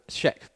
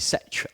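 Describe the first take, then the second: First: The word begins with a 'sh' sound. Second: The word begins with a plain 's' sound. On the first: "I prefer the Scheck squared pronun- Scheck pronunciation. I was taught to put the H early on" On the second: "Some of you were going to say Sech"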